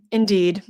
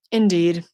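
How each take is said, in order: Both takes have the same delivery.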